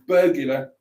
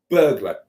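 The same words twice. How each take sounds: First: An extra vowel sounds between G and L. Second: No vowel sounds between G and L. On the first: The speaker calls it right. "much better" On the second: The speaker calls it wrong. "doesn't have a U in it, and it's actually burglar"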